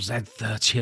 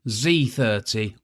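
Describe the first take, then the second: First: The letter Z is said the British way. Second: The letter Z is said a non-British way.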